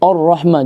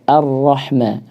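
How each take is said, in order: First: The opening vowel is thick, sounding like o. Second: The opening vowel is a thin, clear a. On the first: The speaker calls it wrong. "jadi o" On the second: The speaker calls it right. "Harusnya dibaca a"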